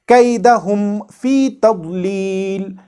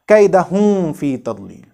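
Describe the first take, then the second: First: The m is said clearly and briefly before f. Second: The m is hidden and blurred into the f. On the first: The speaker calls it right. "with proper idhar, making it clear and brief" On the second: The speaker calls it wrong. "and not"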